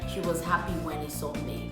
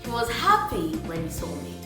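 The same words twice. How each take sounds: First: It is read flatly, without feeling. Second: It is read warmly, sounding genuinely happy. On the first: The speaker calls it wrong. "that sounds so dry" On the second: The speaker calls it right. "You could read it like"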